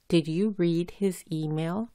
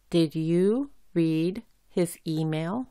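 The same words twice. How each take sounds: First: Said in the usual way. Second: Slow, careful, every word separated; slow model reading. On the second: Shown as a demonstration. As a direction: read it out slowly for learners. (lectura lenta y clara para practicar) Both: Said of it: "por ejemplo".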